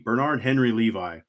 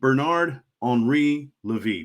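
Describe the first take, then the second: First: The name is said with an English accent. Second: The name is said with a French accent.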